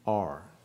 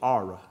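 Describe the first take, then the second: First: The word is said without an extra final vowel. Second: The word is said with an extra final vowel. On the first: "instead of A-R-E" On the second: "how they pronounced the word R. And it was Ara"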